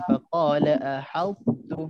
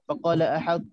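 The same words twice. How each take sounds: First: The phrase slows down slightly in the middle. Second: The phrase is read quickly without slowing. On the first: The speaker calls it right. "dia akan jadi lambat sikit kat situ" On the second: The speaker calls it wrong. "kita dengar orang tu baca laju"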